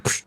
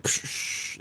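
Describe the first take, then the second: First: Quick crisp psh sound; a plain short snare hiss. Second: Slow, drawn-out whispered psh; long noisy psh. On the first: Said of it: "it sounds like psh". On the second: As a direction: stretch the psh into a long hiss. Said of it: "but if you add the noise, it's like psh". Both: Shown as a demonstration.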